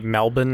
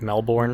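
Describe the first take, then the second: First: Melbourne is said the Australian way. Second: Melbourne is said the American way. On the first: "you say Melbourne" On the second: "instead of Melbourne"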